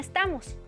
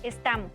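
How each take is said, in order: First: The final s sound is clearly pronounced. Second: The final s sound is dropped. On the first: "En México" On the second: "pérdida de S en el final de palabra"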